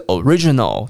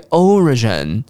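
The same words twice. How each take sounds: First: "original" with "ri" lifted and stretched; stress on second syllable. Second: "origin" with the opening O stressed and lifted; stress on first syllable. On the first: Teacher contrasts stress for learners, RI-stressed "original". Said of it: "重音在第二音节的re". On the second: Teacher contrasts stress for learners, O-stressed "origin". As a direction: hit the O of "origin", let the rest fall. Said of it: "重音在最前面的O". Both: Shown as a demonstration.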